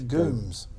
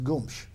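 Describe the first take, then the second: First: The name is said with an English pronunciation. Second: The name is said with Portuguese pronunciation. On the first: "it was anglicised" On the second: "the Portuguese pronunciation of Gomez is Gomes"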